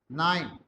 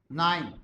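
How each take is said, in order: The two takes are said the same way.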